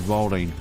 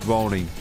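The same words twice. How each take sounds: The two takes are said the same way.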